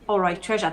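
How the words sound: It is said in a posh accent.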